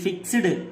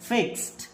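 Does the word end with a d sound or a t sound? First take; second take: d; t. First: The ending is pronounced as a d sound. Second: The ending is pronounced as a t sound. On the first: The speaker calls it wrong. "ఇది ఫిక్స్డ్ కాదు" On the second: The speaker calls it right. "దీన్ని ఏమని చదవాలి"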